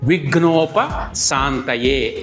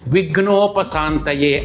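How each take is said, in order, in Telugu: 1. విరామంతో రెండు భాగాలుగా విడదీస్తారు. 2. విడకుండా ఒకే పదంగా పలుకుతారు. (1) "కొంతమంది విడదీసి పలుకుతారు" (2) "ఏకపదంగా మాత్రమే పలకాలి"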